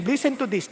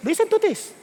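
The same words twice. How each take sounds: First: Said in the usual way. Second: Calling the seniors to listen, pitched up; higher repeat. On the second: Shown as a demonstration.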